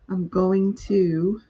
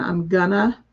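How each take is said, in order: First: Each word is pronounced fully and separately. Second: The words are blended into a reduced form. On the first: The speaker calls it right. "trying to work on my pronunciation" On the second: The speaker calls it wrong. "Instead of saying I'm gonna"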